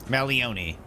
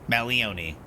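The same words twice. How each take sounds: The two takes are said the same way.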